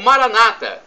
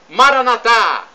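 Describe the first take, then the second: First: It is said in the Protestant pronunciation. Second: It is said in the Catholic pronunciation. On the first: "como dizem nossos irmãos separados, os evangélicos" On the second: "como dizemos nós católicos"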